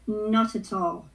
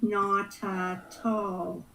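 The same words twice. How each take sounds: First: The phrase is said quickly, run together smoothly. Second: The phrase is said slowly, syllable by syllable.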